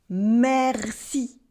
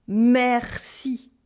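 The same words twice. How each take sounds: The two takes are said the same way.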